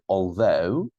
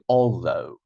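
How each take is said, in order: First: The stress is on the second syllable. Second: The stress is on the first syllable. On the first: The speaker calls it right. "You have to say although, second syllable" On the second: The speaker calls it wrong. "I'm not saying although"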